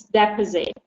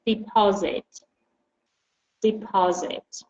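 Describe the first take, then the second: First: "deposit" with stress on the first syllable, DE-posit; the noun "deposit", first syllable stressed. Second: "Deposit" stressed on the second syllable, de-PO-sit; the verb "Deposit", second syllable stressed. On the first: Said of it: "when you use deposit as a noun". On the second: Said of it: "if you use it as a verb, the stress changes". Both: Shown as a demonstration.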